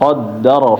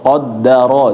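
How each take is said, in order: First: It is said fast so the vowel is blurred. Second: It is said slowly with every vowel clear. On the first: The speaker calls it wrong. "jangan ... terlalu cepat" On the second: The speaker calls it right. "harus benar-benar jelas kedengarannya"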